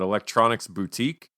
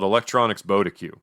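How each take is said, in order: First: The last word is said as boo-teek. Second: The last word is said as bod-ih-cue. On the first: The speaker calls it right. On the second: The speaker calls it wrong.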